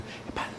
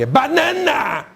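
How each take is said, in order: First: It is said in a whisper. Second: It is said in a shout.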